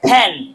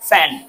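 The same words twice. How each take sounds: First: The first sound is made with both lips closed. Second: The first sound uses upper teeth on lower lip. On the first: "দুই ঠোঁট বন্ধ করে উচ্চারণ করেছি" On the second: "উপরের দাঁত আমি নিচের ঠোঁটের সাথে লাগিয়ে উচ্চারণ করেছি"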